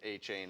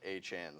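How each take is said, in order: First: The second syllable sounds like 'chain'. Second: The second syllable sounds like 'chan'. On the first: The speaker calls it wrong. "he does not want his name to be pronounced A-Chain" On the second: The speaker calls it right. "It is actually produced, pronounced A-Chan"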